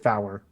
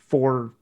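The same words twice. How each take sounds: First: The word is said with two syllables. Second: The word is said with one syllable.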